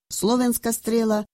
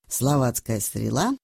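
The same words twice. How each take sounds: First: «Словенская» said much higher, correcting the slip; quick self-correction. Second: Said in the usual way. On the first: Shown as a demonstration. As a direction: fix the word «Словенская» with a sharp high pitch jump.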